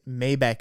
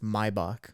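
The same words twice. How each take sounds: First: The name has an English-style pronunciation. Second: The name has a German pronunciation. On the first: "Maybach is how [name] says it" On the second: "it's technically it's Maybach, is the German way to say it"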